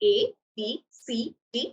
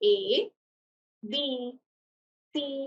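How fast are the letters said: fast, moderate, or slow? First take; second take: moderate; slow. First: The letters are said at a moderate rate. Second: The letters are said at a very slow rate. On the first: "is എ moderate rate" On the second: "അതൊരു വളരെ slow rate ആണ്"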